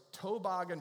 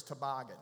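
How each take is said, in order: First: Toboggan said TOE-boggan; North Carolina pronunciation. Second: Toboggan said tuh-BOGGAN; standard pronunciation. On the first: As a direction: give toboggan a long O up front. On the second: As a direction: toboggan with a light, reduced first syllable. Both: Shown as a demonstration. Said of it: "toboggan versus toboggan".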